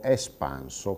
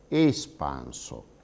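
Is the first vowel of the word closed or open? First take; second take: open; closed. First: The first E is pronounced as an open vowel. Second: The first E is pronounced as a closed vowel. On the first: This is how Sardinian speakers say it. "con quella E aperta" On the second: This is the standard Italian pronunciation. "pronunciare quella prima E di espanso come una vocale chiusa"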